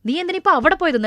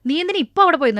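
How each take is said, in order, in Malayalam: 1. അവിടെ എന്ന വാക്കിനാണ് മുഖ്യ സ്ട്രെസ്. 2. ഇപ്പൊ എന്ന വാക്കിനാണ് മുഖ്യ സ്ട്രെസ്. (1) "നിനക്ക് വേറെ എവിടെയെങ്കിലും പോവായിരുന്നല്ലോ" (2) "നിനക്ക് നാളെ പോവായിരുന്നല്ലോ"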